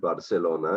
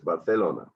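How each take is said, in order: First: The c is pronounced like an s. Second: The c is pronounced like a th. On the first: "it's not Barcelona" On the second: "the C sound is very often pronounced like a T H"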